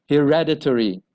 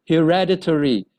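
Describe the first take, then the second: The two takes are said the same way.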